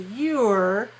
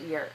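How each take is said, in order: First: The word is stressed and said fully. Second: The word is unstressed and reduced.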